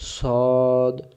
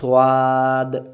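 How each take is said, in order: First: The letter is heavy, with rounded lips. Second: The letter is light, with an open mouth. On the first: The speaker calls it right. "মুখটা একবারে দেখেন গোলেই আছে" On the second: The speaker calls it wrong. "তখন ভুল হয়ে গেল"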